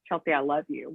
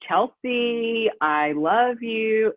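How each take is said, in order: First: Said in the usual way. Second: Slow, sing-song mock of an ex's fake I love you. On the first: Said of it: "Why can't he just say". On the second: Mimicking her ex singing Chelsea I love you on speakerphone, slow fake sing-song. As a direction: stretch it out in a fake sing-song, like a cheap serenade. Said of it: "But he said it like a singing, super fake".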